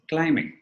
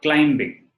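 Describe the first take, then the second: First: The B is silent. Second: The B is pronounced. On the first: The speaker calls it right. "it's climbing" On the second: The speaker calls it wrong. "It's not climbing"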